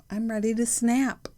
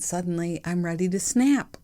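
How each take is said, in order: First: "snap" bitten off sharp and higher; snapped. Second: Said in the usual way. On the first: Shown as a demonstration. Ready to snap at the husband, "snap" bitten off higher. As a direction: bite off the word "snap". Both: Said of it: "And you should say it like that".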